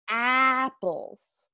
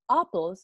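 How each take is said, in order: First: The first vowel is the open hat vowel. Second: The first vowel is not the open hat vowel. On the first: The speaker calls it right. "es apples" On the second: The speaker calls it wrong. "No es apples"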